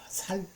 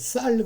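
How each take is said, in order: First: The first consonant is a plain, soft s. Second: The first consonant is a tense, strong s. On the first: The speaker cannot produce the tense sound. "우리 경상도 사람들은 쌀을 못합니다. 살, 살 그럽니다" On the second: The speaker produces the standard tense sound. "쌀 그러면"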